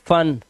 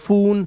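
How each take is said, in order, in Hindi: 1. स्वर एक छोटी 'uh' ध्वनि है। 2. स्वर एक छोटी 'uh' ध्वनि नहीं है। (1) "आ की आवाज" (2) "ये तो अनपढ़ वाली बात हो गई"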